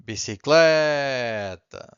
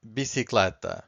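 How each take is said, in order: First: "Bicicleta" with a long, loud "cle"; stress on second-to-last syllable. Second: Said in the usual way. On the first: Shown as a demonstration. Teacher showing the stressed syllable, drawn-out "cle" in "Bicicleta". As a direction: stretch and punch the "cle" in "Bicicleta", short "ta". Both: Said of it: "I'm stressing the second to last".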